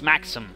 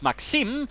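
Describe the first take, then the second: First: The stress falls where British speakers place it. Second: The stress falls where Russian speakers place it. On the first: "I'm rather pronouncing it from the British" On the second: "if you're sort of pronouncing it from the Russian side"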